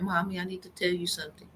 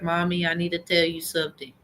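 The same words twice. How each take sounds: First: Put-on soft, quick little-girl voice; a light impression of the daughter, quiet and hurried; imitating her daughter. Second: Said in the usual way. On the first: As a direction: mimic how her daughter always sounds. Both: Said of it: "She always sound like that".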